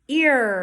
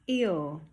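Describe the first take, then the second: First: The word ends with a clear R sound. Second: The word ends without any R sound. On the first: The speaker calls it right. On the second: The speaker calls it wrong.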